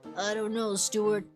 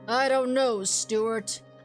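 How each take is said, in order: First: The voice is pitched lower and deeper. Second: The voice sounds light and youthful. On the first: The speaker calls it right. "gonna drop my voice" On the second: The speaker calls it wrong. "I made him sound like kind of young, like a like a new police officer"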